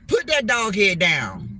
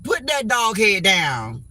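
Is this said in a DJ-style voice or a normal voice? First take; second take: DJ voice; normal. First: It is said in a put-on DJ voice. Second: It is said in the speaker's normal voice.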